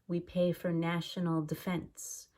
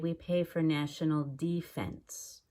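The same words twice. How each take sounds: First: The first syllable of defense is quick and reduced. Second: The first syllable of defense is clear and careful. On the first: The speaker calls it right. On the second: The speaker calls it wrong.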